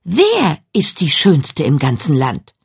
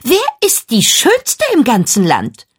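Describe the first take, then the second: First: Lower, slow and grave question; solemn, measured, no more sing-song; serious. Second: Put-on high, proud girl's voice asking the mirror; high and self-assured; vain question. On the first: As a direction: ask it in dead earnest. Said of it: "sagte Jennifer ernst". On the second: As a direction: ask it like she expects to hear her own name. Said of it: "sagte Jennifer". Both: A narrator's reading.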